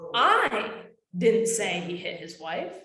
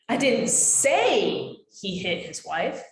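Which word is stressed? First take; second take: I; say. First: The stress is on "I". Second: The stress is on "say".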